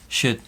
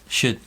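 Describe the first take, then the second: The two takes are said the same way.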